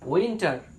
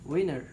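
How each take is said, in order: First: The t sound is clearly pronounced. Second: The t sound is dropped entirely. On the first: The speaker calls it wrong. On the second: The speaker calls it right.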